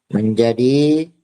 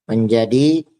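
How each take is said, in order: The two takes are said the same way.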